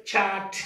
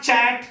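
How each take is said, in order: First: "chat" with a soft breath on ch and open a; correct pronunciation. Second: "chat" with a hard unaspirated ch and flat a; wrong pronunciation. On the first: Teacher models the right word, correct pronunciation. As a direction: say "chat" as chhaat, light छ. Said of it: "the word is chat". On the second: Teacher shows the wrong way, mispronounced word. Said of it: "It's not chat". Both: Shown as a demonstration.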